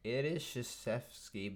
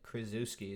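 First: Krzyzewski said "shuh-SHEF-skee"; correct pronunciation. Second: Krzyzewski read as "kriz-OO-skee"; spelled pronunciation. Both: Shown as a demonstration. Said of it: "is what it looks like".

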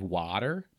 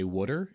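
First: Water with an open "ah" vowel; standard American vowel. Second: Water with the local Pennsylvania vowel, like "wooder"; regional Pennsylvania vowel. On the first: Contrasting with local speech, water as "wahter". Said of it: "instead of water". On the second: Showing a Brit the local word, water as "wooder". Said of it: "a lot of people where I live say". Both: Shown as a demonstration.

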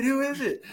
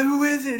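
First: Higher, insistent repeat, imitated; eager surprise. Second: Higher, curious burst, imitated; eager surprise. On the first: Riders at the meeting insist on the name, eagerly. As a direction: press the question again like a nosy crowd. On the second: Riders at the meeting demand the name, eagerly. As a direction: mimic a crowd dying to know. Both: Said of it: "And everyone's like".

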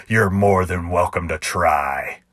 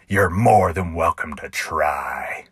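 First: Slow, even challenge from the cowboy; cowboy's challenge. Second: Mocking copy of the cowboy's slow dare; clown mimicking the cowboy. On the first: Acted. Cowboy daring the clown to draw, slow and steady. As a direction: dare him calmly. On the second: Clown echoing the cowboy's dare in mock imitation. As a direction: parrot the cowboy's line back at him. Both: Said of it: "in a perfect imitation of the cowboy".

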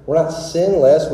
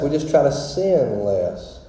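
First: Said in the usual way. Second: "sin less" said as two words, a small gap between them, slowed; split sin less. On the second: Shown as a demonstration. Preacher to the congregation, landing the sinless pun with a split "sin less". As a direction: pull "sin" and "less" apart to land the pun.

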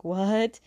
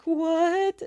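First: Said in the usual way. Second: Freaked out. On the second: Retold or imitated. They're getting freaked out.

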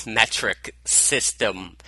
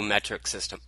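First: Words mushed without teeth; mouth full. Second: Slurred without teeth; mushy gummed words; mouth full. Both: Real, not acted. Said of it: "Boy, can't talk today".

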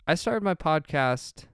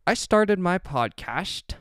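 First: Said in the usual way. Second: High, drawn-out, silly announcement; odd put-on delivery. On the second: Real, not acted. Host slipping into a funny way of announcing the podcast, odd put-on delivery. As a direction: stretch it out slowly in a raised, odd voice. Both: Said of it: "why I started talking like that".

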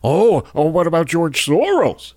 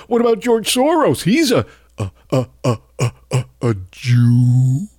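First: Sneering whiny parody of a right-winger, slightly higher; mocking right-wing critics. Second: Mock right-wing stammer. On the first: Host mocks right-wing critics' Soros comeback, sneering parody voice. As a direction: mimic the critics' stock comeback with scorn. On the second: Host mimics a bigot stammering out his real meaning, mocking parody voice. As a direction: parody a bigot fumbling toward the real point. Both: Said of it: "right-wing racists and Nazis are quick to point out".

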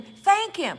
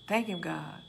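First: Loud preaching shout. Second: Quiet sincere thanks. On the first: Preacher commanding the church to give thanks, loud. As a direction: THANK hit high and loud. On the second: Preacher showing a humble thank-you prayer, soft. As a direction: Thank said low and soft, gently. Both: Shown as a demonstration.

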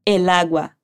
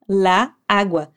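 First: "El agua" said clearly with el before agua; correct form. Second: "la agua" said slowly as the wrong example, with la before agua; slowly flag "la agua" as the form to avoid. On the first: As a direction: model the right form "El agua" plainly. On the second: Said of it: "não vamos dizer la agua". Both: Shown as a demonstration.

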